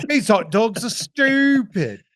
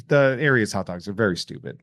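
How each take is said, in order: First: High, slow, loud London take; hammed-up British grumble; mock British accent. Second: Said in the usual way. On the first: Mocking hot dogs in a fake London accent. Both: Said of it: "Sorry, the, you".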